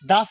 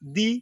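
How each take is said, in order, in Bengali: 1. শব্দটি একটি ছোট 'uh' ধ্বনি দিয়ে শেষ হয়। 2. শব্দটি একটি লম্বা 'ee' ধ্বনি দিয়ে শেষ হয়। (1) "কনসোনেন্টের পূর্বে দা উচ্চারণ করবেন" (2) "ভাওয়েলের পূর্বে দি উচ্চারণ করবেন"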